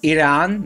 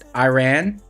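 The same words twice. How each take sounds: First: The first syllable sounds like 'ee'. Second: The first syllable sounds like 'eye'. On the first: The speaker calls it right. "it's pronounced Iran" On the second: The speaker calls it wrong. "not Iran"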